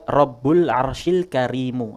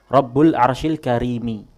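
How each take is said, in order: First: The last word ends with a 'u' vowel. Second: The last word ends with an 'i' vowel. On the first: Noble describes the Lord. "Tapi ada di sana qiraah dibaca" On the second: Noble describes the Throne. "Di mushaf qiraahnya kita itu Al-Karim menjadi naat bagi Al-Arsh"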